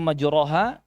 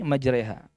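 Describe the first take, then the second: First: The vowel after the r is an open a. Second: The vowel after the r leans toward e. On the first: This is the usual reading without imalah. "Asalnya majroha" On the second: This is the reading with imalah used here. "Ini dibaca imalah ya. ... tetapi jadi majraiha"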